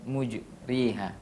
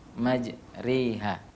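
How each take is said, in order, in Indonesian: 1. Vokal pertama 'u', yang kedua 'i'. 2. Vokal pertama 'a', yang kedua 'e'. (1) "Bukan mujriha" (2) "dengan baca majreha"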